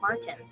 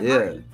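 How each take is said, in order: First: The t in the middle is clearly pronounced. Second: The t in the middle is dropped. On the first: This is how people from other areas say it. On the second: This is how South Jersey speakers say it.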